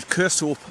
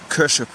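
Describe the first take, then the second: First: The last syllable has a long 'o' vowel. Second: The last syllable has a short 'i' vowel. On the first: This is how an outsider says the name. "I would say Kershope" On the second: This is how local Scottish people say the name. "the Scottish pronounce it Kership"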